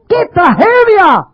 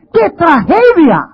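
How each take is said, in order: First: "tragedia" drawn out, higher and slow; slower higher lament. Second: Drawn out, slow and high; slow lament. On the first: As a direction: stretch the grief further. ("tragedia" lenta y más aguda) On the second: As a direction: mourn it slowly. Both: Acted.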